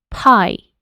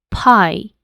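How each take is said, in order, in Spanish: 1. La primera consonante se suelta con un soplo de aire. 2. La primera consonante se suelta con un soplo de aire.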